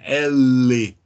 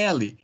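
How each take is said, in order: First: It is a bare, held consonant sound. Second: It is said as a two-syllable name. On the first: This is the sound the letter makes. "esse é o som da letra, no caso, o som da letra L" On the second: This is what the letter is called. "Mas o nome dessa letra aqui é L"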